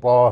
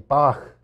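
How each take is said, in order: First: The name ends in a plain open vowel. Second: The name ends in a throaty ch sound. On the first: It hides the German origin of the name. "it became Baugh School instead of Bach" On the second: It marks the speaker as German. "the way a German or German American would pronounce it"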